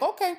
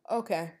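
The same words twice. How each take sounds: First: Much higher and louder okay; incredulous okay. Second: Said in the usual way. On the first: Retold or imitated. Done arguing with the roommate, high incredulous okay. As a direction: snap it up in disbelief. Retold end of the argument.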